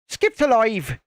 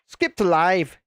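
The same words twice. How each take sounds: First: It is said in a put-on Irish accent. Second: It is said in the speaker's own accent.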